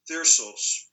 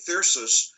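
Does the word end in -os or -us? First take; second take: -os; -us. First: The word ends with an -os sound. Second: The word ends with an -us sound.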